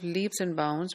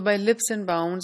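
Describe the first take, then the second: First: The first word has a long vowel. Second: The first word has a short vowel. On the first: This is the standard form of the idiom. "in place of leaps and bounds" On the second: This is a local variant that may confuse listeners. "Instead of leap, the sound is pronounced as lip"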